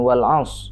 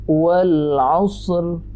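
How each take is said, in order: First: The final r is dropped completely at the end. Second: The final r is pronounced softly at the end. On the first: The speaker calls it wrong. "Itu namanya korupsi huruf" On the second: The speaker calls it right. "tekan dulu aus, baru ikuti bunyi ra dengan suara rendah"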